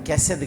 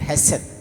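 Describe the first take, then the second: First: The word begins with a k sound. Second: The word begins with an h sound. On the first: The speaker calls it wrong. "కెసెద్ కాదు" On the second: The speaker calls it right. "దాని పేరు హెసెద్"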